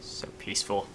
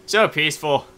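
First: Soft whispered so peaceful. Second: Said in the usual way. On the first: Pretend. Gamer sailing calmly, whispering to viewers. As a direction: breathe it out as a whisper.

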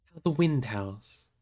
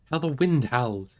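First: Slow, restrained remark; understated, drawn-out observation; slow musing. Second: Drawn-out, mildly raised cry; understated dramatic exclamation. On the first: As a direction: draw it out slowly, without crying out. Frodo remarks on the cold gloom. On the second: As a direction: call it out slowly in realisation. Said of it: "he cried". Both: A narrator's reading.

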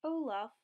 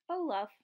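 First: Mildly gentle call of a name; understated tender storybook voice; said gently. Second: Louder storybook call; a lightly acted exclamation; exclaimed. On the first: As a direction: address him kindly, without exclaiming. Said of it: "Elsa said gently". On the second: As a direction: call out the name in mild excitement. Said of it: "Anna exclaimed". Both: A narrator's reading.

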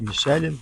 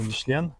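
First: Michelin трохи вище й гучніше, друга спроба; перепитай Michelin голосніше, ніби виправляєш себе; друга вимова Michelin. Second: Michelin з наголосом на кінці, «мішлЕн», тон угору; скажи Michelin як «мішлЕн», з підйомом; перша вимова Michelin. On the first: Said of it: "як ми правильно". (друга спроба: Michelin вище й гучніше, з питанням) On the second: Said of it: "Наголос, інтонація". (перша спроба: Michelin, наголос на останньому складі) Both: Shown as a demonstration.

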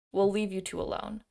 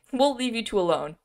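First: Said in the usual way. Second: Louder, higher mock repeat of the line. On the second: Reader poking fun at walking away five feet, mocking. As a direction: send up the line with amused exaggeration. Mocks script's five-foot retreat.

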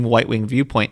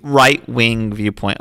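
First: "white-wing" with a W sound in place of right; slip of the tongue. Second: "Right-wing" said slowly with a clear R; corrected slip. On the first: Reading out The Economist's view of the Times, slip on "white-wing". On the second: Correcting a misread magazine quote, careful R on "Right-wing". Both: Real, not acted. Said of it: "White wing?".

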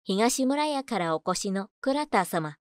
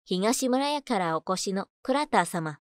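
Both takes have the same delivery.

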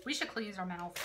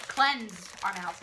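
First: "cleanse" said like "cleans" with a long ee; "cleanse" rhyming with "beans"; mispronounced cleanse. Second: "Cleanse" said with a short e, like "lens"; slow careful "Cleanse" rhyming with "lens"; correct cleanse. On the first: Real, not acted. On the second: Shown as a demonstration. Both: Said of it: "not cleanse".

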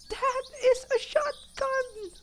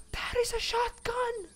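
First: Very high, slow awed squeak; drawn-out squeal. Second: Very high, thin excited squeak; awed squeal. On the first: Player savouring the shotgun find, slow delighted squeal. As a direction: stretch each word out in a high squeal. Repeats it slower, still squealing. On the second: Player spotting a shotgun, high awed squeal. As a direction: squeal in real delight. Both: Real, not acted.

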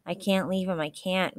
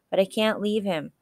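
First: Understated tearful refusal; a touch of grief, without real sobs; sobbing. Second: Higher-pitched, insistent protest. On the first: Boy beside his dead friend, mildly sobbed. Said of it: "Matt sobbed". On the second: Boy refusing to abandon his friend, protesting. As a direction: object in distress, refusing to go. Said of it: "Matt protested". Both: A narrator's reading.

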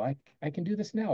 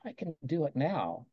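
First: Said in the usual way. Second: Softer, murmured to oneself; a quiet private nudge; quiet self-talk. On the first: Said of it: "And I go". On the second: Shown as a demonstration. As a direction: say it under your breath to yourself. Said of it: "Whisper to yourself".

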